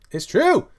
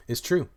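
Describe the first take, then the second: First: High, loud squawk on "true"; emphatic high-pitched outburst; exclaimed insistence. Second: Said in the usual way. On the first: Real, not acted. Repeat escalates into a high cry.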